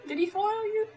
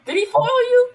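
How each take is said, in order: First: Repeated through laughter, high; laughing. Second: High, loud teasing question; excited tease. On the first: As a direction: tease again while laughing. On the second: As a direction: poke fun, loud and high. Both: Real, not acted.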